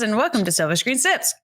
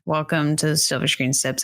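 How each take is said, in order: First: It is said in a very chipper, enthusiastic way. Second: It is said in a flat, subdued, low-energy way.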